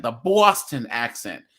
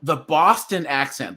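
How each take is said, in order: First: A touch of Boston on BOSTON; Boston accent. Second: Said in the usual way. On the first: Shown as a demonstration.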